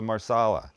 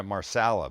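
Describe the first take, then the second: First: Said in the usual way. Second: Marsala with a Canadian short flat A in SAL; Canadian accent. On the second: Shown as a demonstration. Cook owning up to how they called the dish, Canadian accent. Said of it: "that was my Canadian accent".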